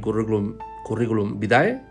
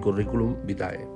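First: Vitae is stressed on its second syllable. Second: Vitae is stressed on its first syllable. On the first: The speaker calls it wrong. "no debemos decir" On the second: The speaker calls it right. "debemos decir"

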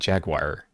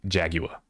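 First: The word has an American pronunciation. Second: The word has an English pronunciation. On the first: "instead of saying jaguar" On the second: "you have to say jaguar"

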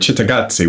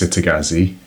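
First: The name is said with Italian pronunciation. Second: The name is said with English pronunciation.

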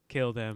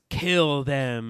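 First: It is said in a casual tone. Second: It is said in an intense tone.

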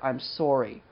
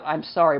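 First: Sorry is said in a regional Maryland accent. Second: Sorry is said in a general accent. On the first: "but I'm sorry. I say that a lot" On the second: "Or not I'm sorry"

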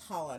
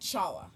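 First: The word begins with a throaty h-like sound. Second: The word begins with a ch sound as in church. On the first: The speaker calls it right. "And it's challah" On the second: The speaker calls it wrong. "not challah"

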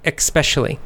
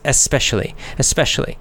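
First: The word begins with an 'eks' sound. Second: The word begins with a plain 'es' sound. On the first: "most Americans pronounce it with the K sound" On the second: "It's pronounced E-S, especially. That's the dictionary"

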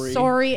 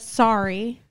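First: It is said with a Canadian accent. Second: It is said without a Canadian accent. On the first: "The Canadians say sorry. Sometimes you will catch me saying sorry" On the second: "instead of sorry"

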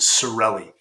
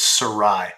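First: The name is said with an English-style 'relli' ending. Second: The name is said French-style, rhyming with Versailles. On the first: This is how the family says it day to day. The speaker calls it wrong. "we actually embarrassingly mispronounce it. So we pronounce it Sorelli" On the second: This is the original pronunciation of the name. The speaker calls it right. "The correct pronunciation is Sarai. Think like the Treaty of Versailles"

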